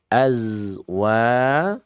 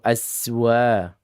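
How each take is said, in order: First: The middle consonant is a z sound. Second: The middle consonant is an s sound. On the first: The speaker calls it right. "yang betul adalah az" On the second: The speaker calls it wrong. "Ajwa atau aswa"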